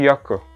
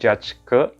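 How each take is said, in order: First: The word begins with a y sound. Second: The word begins with a j sound as in judge. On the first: The speaker calls it right. "tapi Yake" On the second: The speaker calls it wrong. "bacanya bukan judge ke"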